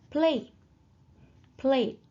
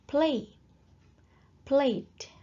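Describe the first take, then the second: No difference in how they are said.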